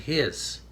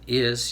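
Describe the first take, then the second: First: The word starts with an added h sound. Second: The word starts with a plain vowel sound. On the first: This is how Newfoundlanders say it. "you put an H in front of it" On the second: This is the ordinary way of saying it. "instead of is"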